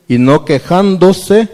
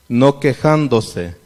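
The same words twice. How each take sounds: First: "quejándose" slow, high and loud, rising at the end; the preacher lands the key word of the verse; emphatic rise. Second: "No quejándose" said very slowly at a normal level; the preacher repeats the phrase so it sinks in; slow deliberate repeat. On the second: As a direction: spell out "No quejándose" slowly, falling on "No". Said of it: "repeats phrase slowly". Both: Real, not acted.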